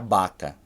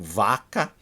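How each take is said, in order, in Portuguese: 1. A palavra começa com som de B. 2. A palavra começa com som de V. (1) "o japonês falaria baca" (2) "vaca, de vaca, animal"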